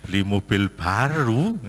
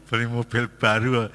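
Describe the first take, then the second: First: Slow, rising, doubtful echo of the request; surprised question. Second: Said in the usual way. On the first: Retold or imitated. Father echoing his child's car request in disbelief. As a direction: repeat the words back in disbelief. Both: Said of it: "Pikir saya kan".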